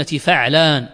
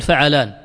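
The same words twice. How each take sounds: First: فعلان as fa'-laan, with a vowelless ع; sukun on the ayn. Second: فعلان as fa-'a-laan, three syllables; vowel on the ayn. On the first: Teacher stressing the right form to students, فعلان said "fa'-laan". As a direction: close the first syllable of فعلان on the ع. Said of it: "أقول بسكون العين". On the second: Teacher showing the form he does not mean, فعلان said "fa-'a-laan". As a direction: put a short "a" after the ع in فعلان. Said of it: "لا أقول فعلان". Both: Shown as a demonstration.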